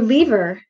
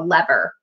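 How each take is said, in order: First: It is said with a British pronunciation. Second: It is said with an American pronunciation.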